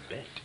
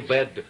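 First: The word is said on a strong outbreath. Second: The word is said plainly, without a strong outbreath. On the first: The speaker calls it right. "а bed. На выдохе" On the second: The speaker calls it wrong. "Да не bed"

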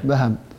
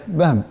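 First: The h is followed by an a vowel. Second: The h has no vowel after it. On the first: "وبفتح الباء والهاء" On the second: "بفتح الباء وسكون الهاء"

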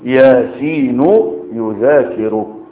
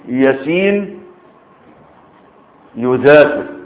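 First: The two words run together without a pause. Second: There is a pause after the first word. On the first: "وصل الكلام ببعضه" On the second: "انا قلت ياسين وقفت عليه وبعدين قلت ايه؟ يذاكر"

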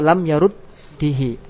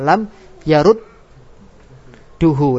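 First: The vowel after the doubled d is i. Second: The vowel after the doubled d is u. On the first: This reading is allowed by some scholars. "Boleh enggak dibaca fathah dan kasrah? Boleh menurut pendapat ulama ahli kufa" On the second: The vowel matches the vowel that comes after it. "wajib doma ... mengikuti harokat setelahnya"

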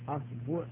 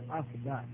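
First: The vowel after the b is u. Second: The vowel after the b is a. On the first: "والضم" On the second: "الفتح"

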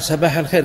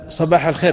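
First: The first sound is a plain, light S. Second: The first sound is an emphatic, heavy S. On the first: "الصاد ينطقها سين" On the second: "وإذا قال صباح الخير"

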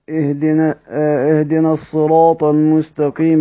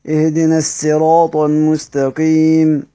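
First: The word begins with an emphatic s sound. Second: The word begins with a plain s sound. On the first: "بدأت بالصاد" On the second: "بالسين"

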